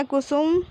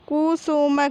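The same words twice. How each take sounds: First: Said in the usual way. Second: Kusum broken into कु, सु, म; teacher spelling out Kusum in pieces; syllable by syllable. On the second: Shown as a demonstration. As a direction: sound out Kusum with a full final म. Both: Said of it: "तो हम इस प्रकार पढ़ेंगे".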